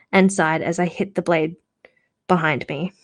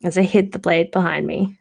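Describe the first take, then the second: First: "hit" said with a hard t, the wrong word; misreading "hid" as "hit", clear final t. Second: Rereading the line, landing on "hid"; corrected word. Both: Real, not acted. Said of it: "Sorry, hid, not hit".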